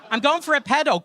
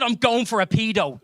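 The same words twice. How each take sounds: First: Pedo said as "PED-oh"; short "eh" in pedo; short PED pronunciation. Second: Pedo said as "PEE-doh"; long "ee" in pedo; long PEE pronunciation. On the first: Same sentence, harmless-sounding pronunciation. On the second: Same sentence, sinister-sounding pronunciation. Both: Shown as a demonstration.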